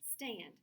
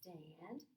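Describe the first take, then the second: First: The word is said quickly, as one unit. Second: The word is said slowly, sounds drawn out. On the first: "say it fast like a word" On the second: "Now I can say it slow"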